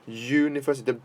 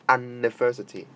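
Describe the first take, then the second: First: It begins with a 'you' sound. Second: It begins with a plain vowel sound. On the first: The speaker calls it right. "this U is this uh, is pronounced as Y" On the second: The speaker calls it wrong. "but not university"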